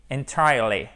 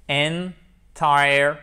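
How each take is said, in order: First: Said in the usual way. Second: "Entirely" in three slow, separate pieces: en, tire, ly; syllable by syllable. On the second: Shown as a demonstration. Teacher demonstrating an adverb, syllable by syllable. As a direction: break "Entirely" apart, loud on TIRE.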